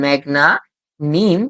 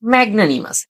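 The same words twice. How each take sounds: First: "ম্যাগনা" then "নিম" as separate chunks; syllable-by-syllable "ম্যাগনা... নিম"; broken into small parts. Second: Said in the usual way. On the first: Shown as a demonstration. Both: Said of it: "এখানে আমরা ভেঙেছি ছোট ছোট করে".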